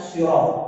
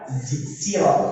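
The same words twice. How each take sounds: First: The first consonant is a heavy emphatic s. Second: The first consonant is a plain light s. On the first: "pakai shod" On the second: "pakai sin"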